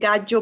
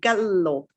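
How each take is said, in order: First: The double L sounds like a Y sound. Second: The double L is a held, long L. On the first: The speaker calls it wrong. "The double L is J" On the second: The speaker calls it right. "it's the same as any other double consonant... almost like you hesitate"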